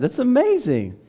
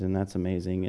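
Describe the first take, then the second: First: Very high, loud exclamation of wonder; amazed. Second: Low, soft, unimpressed throwaway; mock indifference. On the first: Shown as a demonstration. Preacher urging wonder at flight, amazed. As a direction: burst out in full amazement. We often lose our excitement. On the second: Churchgoer reacting to someone saved, mock indifference. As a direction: say it with all the excitement gone. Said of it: "we often lose our excitement".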